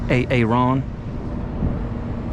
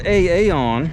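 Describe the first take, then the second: First: The last syllable starts with an R sound. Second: The last syllable starts with a vowel, no R. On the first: The speaker calls it right. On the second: The speaker calls it wrong.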